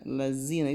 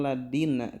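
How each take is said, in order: First: The middle consonant is a buzzing z sound. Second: The middle consonant is a hard d sound. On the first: "lazina itu terlalu z" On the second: "Ini terkadang suka dibaca dal yang tidak pakai titik"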